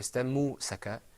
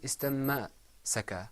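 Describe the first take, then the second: First: A u vowel follows the m sound. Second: An a vowel follows the m sound. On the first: "or istammu-saka" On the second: "It wasn't istamma-saka"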